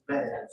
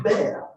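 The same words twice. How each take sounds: First: "bear" with an open air vowel; correct bear. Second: "bear" said like "beer"; mispronounced bear. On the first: Teacher correcting the toy word, correct bear. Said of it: "It's bear". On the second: Teacher showing the funny mistake, mispronounced bear. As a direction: give "bear" an ee-er vowel. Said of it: "of course, it's not bear". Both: Shown as a demonstration.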